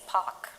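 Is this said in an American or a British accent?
British. It is said in a British accent. Speaking to a fellow Indian. "I use the British accent"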